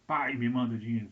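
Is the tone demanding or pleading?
demanding. It sounds harsh and demanding.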